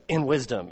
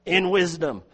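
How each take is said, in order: First: Said in the usual way. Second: "In wisdom" lifted, with the weight on "In"; emphatic stress. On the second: Shown as a demonstration. Preacher showing the Greek puts "In wisdom" first, stressing "In". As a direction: land hard on "In" of "In wisdom". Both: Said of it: "It's emphatic".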